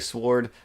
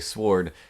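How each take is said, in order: First: The W sound is silent. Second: The W sound is pronounced. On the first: "I don't usually say sword" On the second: "I feel the urge to say sword because there's a there's a W in there"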